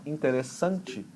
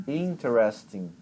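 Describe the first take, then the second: First: "interessante" said slowly with the force on SAN; stress near the end. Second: "interesting" slow, strong IN, the rest coasting down; stress on first syllable. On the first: Teacher setting Portuguese against English, force at the end. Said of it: "dá a força lá no final". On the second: Teacher modelling for student to repeat, push at the start. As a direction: lean on IN in "interesting" and let the ending flow. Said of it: "o final da palavra você fala só no embalo". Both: Shown as a demonstration.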